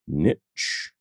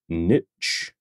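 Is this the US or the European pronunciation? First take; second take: US; US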